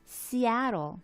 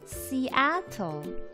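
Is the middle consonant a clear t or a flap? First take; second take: flap; t. First: The middle consonant is a flap. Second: The middle consonant is a clear t.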